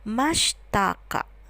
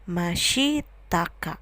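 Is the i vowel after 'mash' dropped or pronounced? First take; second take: dropped; pronounced. First: The i after sh is dropped. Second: The i after sh is fully pronounced. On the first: "seringkali diucapkannya pronunciation-nya adalah mashtaka" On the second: "Tulisannya mashitaka"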